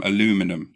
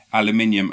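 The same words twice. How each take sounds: First: "aluminum" the American way, a-LOO-mi-num; American pronunciation of "aluminum". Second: "aluminium" the British way, al-you-MIN-ee-um; British pronunciation of "aluminium". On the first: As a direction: say "aluminum" with four syllables, stress on LOO. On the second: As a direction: say "aluminium" with five syllables, stress on MIN. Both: Shown as a demonstration. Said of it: "having a, an argument with someone about the".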